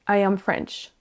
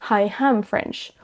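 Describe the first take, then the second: First: The vowels begin cleanly with no h sound. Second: An h sound is added before the vowels. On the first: The speaker calls it right. "Si vous placez les H aux bons endroits" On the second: The speaker calls it wrong. "vous avez tendance à rajouter"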